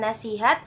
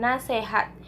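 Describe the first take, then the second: First: The second syllable has an i vowel. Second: The second syllable has an e vowel. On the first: The speaker calls it right. "pengucapannya adalah nasihat" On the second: The speaker calls it wrong. "sering dilafalkan dengan nasehat"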